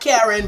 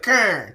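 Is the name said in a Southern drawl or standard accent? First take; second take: standard; Southern drawl. First: The name has two syllables, in a standard accent. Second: The name is squeezed into one syllable, in a Southern drawl. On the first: "it's normally K A R E N" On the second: "This is the Southern drawl version of my name"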